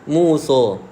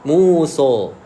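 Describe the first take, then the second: The two takes are said the same way.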